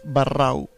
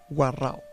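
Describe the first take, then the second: First: The name begins with a b sound. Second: The name begins with a v sound. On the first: This is the usual outside name for the people. "называются еще раз барау" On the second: This is the name in Spanish or their own language. "На самом деле на испанском или на их языке будет варау"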